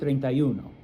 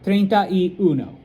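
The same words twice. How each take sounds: First: The words are said fast and run together. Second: The words are said slowly and separately.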